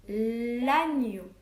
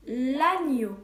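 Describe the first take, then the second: First: L'agneau repeated slowly with a falling tone; dictation repeat. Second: L'agneau said slowly and loud, clearly marking the gne; dictation word. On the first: Teacher repeating the word for pupils writing on slates. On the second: Teacher dictating the first word loudly to pupils. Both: Shown as a demonstration. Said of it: "premier mot".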